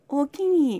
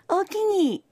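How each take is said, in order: First: It is said hesitantly and apologetically. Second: It is said warmly and eagerly. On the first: I would like to, but not right now. "食べたいけど今やめとくわっていう時も大きに" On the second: Yes, I would like to eat it. "ほんまに食べたかった場合の大きに"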